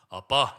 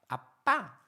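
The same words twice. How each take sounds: First: It is said in a plain adult voice. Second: It is said in a lisping, childish voice.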